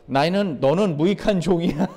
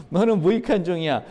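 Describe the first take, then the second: First: Lightly voiced master passing judgement; stern master. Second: Said through a laugh; laughing verdict. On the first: Jesus telling the servant he is unprofitable, a light touch of sternness. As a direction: give the verdict as the master. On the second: Acted. Jesus telling the servant again, now chuckling. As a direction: laugh while you hand down the verdict.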